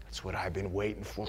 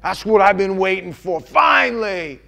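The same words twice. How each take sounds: First: Soft, hushed, loving acceptance; God welcoming the broken man, soft and low; quiet tender welcome. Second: Louder, rising, glad cry; God rejoicing over the broken man, loud and glad; joyful welcome. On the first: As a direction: draw him in gently. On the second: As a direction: celebrate his return. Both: Retold or imitated. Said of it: "what he said to me".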